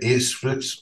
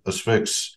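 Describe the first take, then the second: First: The first A is hard and full. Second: The first A is soft and weak. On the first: "Or how'd you say it?" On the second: "I never actually pronounce it, it with a hard A like you do"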